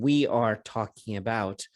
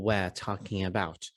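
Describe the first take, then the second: First: Both words of "we are" are fully pronounced. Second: "We are" is reduced to one weak syllable. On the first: "instead of saying we are talking about" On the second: "he's saying we're talking about ... with less emphasis on auxiliary verb"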